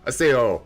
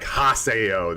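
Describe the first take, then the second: First: It starts with no h sound. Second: It starts with a clear h sound. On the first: The speaker calls it right. "They say like aseo" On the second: The speaker calls it wrong. "they don't say like haseo"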